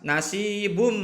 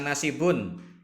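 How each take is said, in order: First: The word ends with an m sound. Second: The word ends with a clear n sound. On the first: The speaker calls it right. "Yang benar adalah nasibum mimma" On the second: The speaker calls it wrong. "Jangan dibaca nasibun"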